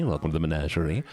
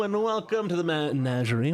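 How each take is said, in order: First: Said in the usual way. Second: Showman welcome. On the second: Acted. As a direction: roll it out like a circus host greeting the crowd.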